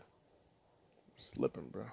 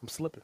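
First: Slow breathy whisper, stretched out; whispered drawl. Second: Said in the usual way. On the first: Acted. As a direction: breathe it out slowly like a secret. Drawn-out whispered repeat.

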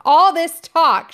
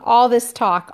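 First: Shouting. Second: Said in the usual way. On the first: Acted. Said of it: "shouted Ralph".

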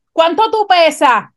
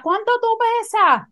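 First: Louder, higher retold nurse's call; nurse shouting across the room. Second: Much higher, shrill-pitched mock yell; nurse yelling at full voice. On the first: ER nurse asks patient's weight out loud, mock shouted. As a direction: call it out for everyone to hear. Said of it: "yo oigo a esta enfermera gritando". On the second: Nurse broadcasts patient's weight question, high mock yell. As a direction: holler it across the emergency room. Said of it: "y ella a toda boca".

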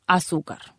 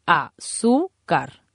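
First: Said in the usual way. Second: "Azúcar" very slowly as a, zú, car, stress on zú; syllable by syllable. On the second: Shown as a demonstration. Teacher showing the stressed penultimate syllable, "Azúcar" slowly syllabified. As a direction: break "Azúcar" into three spaced syllables, leaning on zú. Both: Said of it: "en la penúltima sílaba".

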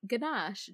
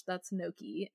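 First: Gnocchi wrongly said as "ganache", guh-NAHSH; mispronounced gnocchi. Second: Said in the usual way. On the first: Retold or imitated. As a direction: say "Ganache" for gnocchi, with a hard g and a sh ending. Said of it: "That is not ganache". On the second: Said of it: "The G is silent".

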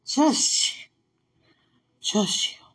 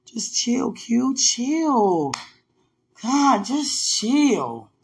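First: Hushed breathy calm-down; whispered self-calming. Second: Slow self-calming. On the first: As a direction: whisper it to yourself. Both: Real, not acted.

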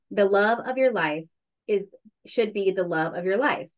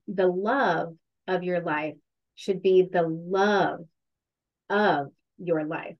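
First: Said in the usual way. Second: Slow, with the second "love" and "life" leaned on; "The love of your life should be the love of your life" slowly, with weight on the second "love"; slow emphatic quote. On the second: Shown as a demonstration. Repeating the friend's quote to a podcast host, slow and emphatic. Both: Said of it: "I hope I put the emphasis on the right syllable".

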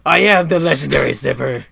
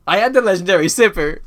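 First: Loud, theatrical villain voice; booming put-on villain proclamation; Mandarin. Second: Loud, high, booming announcement; over-the-top dramatic declaration; mock-grand proclamation. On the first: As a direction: declare it as a grandiose movie villain. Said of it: "do it in the Mandarin voice". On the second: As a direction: proclaim it like a big reveal. Announces himself, then take in Mandarin voice.

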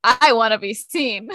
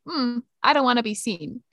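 First: Louder, showy declaration; attention-seeking outfit voice. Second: Understated, hesitant "hmm" then a modest delivery; reluctant outfit voice. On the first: Friend voicing the bold half of an outfit, showy and loud. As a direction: announce it as if showing off. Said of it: "the other part of the outfit says". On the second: Friend voicing the shy half of an outfit, understated reluctance. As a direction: voice an outfit that would rather hide. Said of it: "Part of his outfit is like". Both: Acted.

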